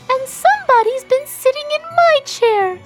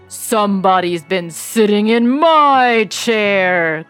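First: It is said in a shrill, little voice. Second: It is said in a deep, big voice.

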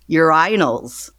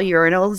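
First: It is said with British stress on another syllable. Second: It is said with the usual American stress.

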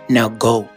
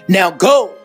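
First: It is said calmly. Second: It is said angrily.

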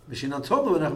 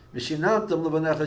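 First: The stress falls on the final syllable tam. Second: The stress falls on the syllable nan. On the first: You should teach them to your children. "means you should teach it to your children" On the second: You taught them to your children. "is you taught it to your children"

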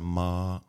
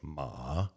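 First: The pitch stays level and high. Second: The pitch dips down then comes up. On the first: "if you say a flat sound" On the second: "Third tone is dipping"

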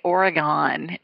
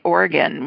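First: The name is pronounced the outsider way. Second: The name is pronounced the local way. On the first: The speaker calls it wrong. "we used to say Oregon" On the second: The speaker calls it right. "I learned how to say Oregon"

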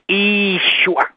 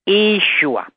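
The two takes are said the same way.

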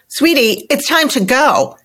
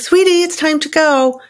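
First: The voice sounds curt and irritated. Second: The voice sounds warm and gentle. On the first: The parent is annoyed. The speaker calls it wrong. "in a kind of snippy voice" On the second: The parent is being loving. The speaker calls it right. "in a kind, loving voice"

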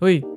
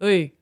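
First: It is said in a very deep voice. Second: It is said without the very deep voice.

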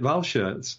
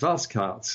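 First: The name is pronounced in a German style. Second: The name is pronounced in a Belgian style. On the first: The speaker calls it wrong. "we've always made it German" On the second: The speaker calls it right. "Sven is telling us it's Valschaerts"

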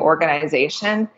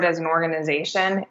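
First: The I sound is harder, in a Canadian way. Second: The I sound is soft, the speaker's usual way.

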